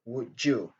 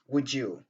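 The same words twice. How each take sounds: First: The d and y merge into a j sound. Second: The same.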